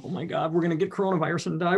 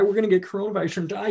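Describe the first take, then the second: First: Fast, mock-panicked parent babbling; hammed-up panic. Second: Higher, fast hammed-up panic; frantic parent, pushed higher; mock panic. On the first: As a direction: play the frantic parent, rushed. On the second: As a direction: repeat the fear, pitched up and rushed. Mocking panicked parent, repeated.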